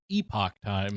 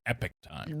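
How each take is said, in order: First: The first word sounds like 'ee-pock'. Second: The first word sounds like 'epic'. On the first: This follows the spelling. "it would be pronounced Epoch Time, because that's the way it's spelled" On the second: This is how the owners say it. "they do, for whatever reason, pronounce it Epic Time"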